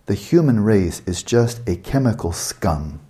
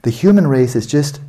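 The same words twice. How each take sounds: First: Slow, deliberate reading of the quote; slowly. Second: Said in the usual way. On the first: Shown as a demonstration. Lecturer rereading Hawking to the audience, slowly. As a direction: drag out every word so it lands. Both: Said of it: "I have to say this slowly".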